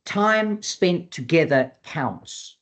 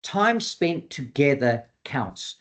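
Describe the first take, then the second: First: Slower, higher, each word weighted; slow emphatic repeat. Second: Said in the usual way. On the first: Shown as a demonstration. Trainer repeats the key rule so the audience remembers, slow and emphatic. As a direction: drive "Time spent together counts" home, word by word. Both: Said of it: "I'm gonna say that again".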